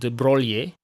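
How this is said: The name is said with Italian pronunciation. "in Italian will be pronounced something like"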